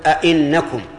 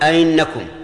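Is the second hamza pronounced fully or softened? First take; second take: fully; softened. First: The second glottal stop is pronounced fully. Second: The second glottal stop is softened and passed quickly. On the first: "تحقيقها أن تقول" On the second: "تسهيلها أن تقول ... سهلها تمر بها بسرعة"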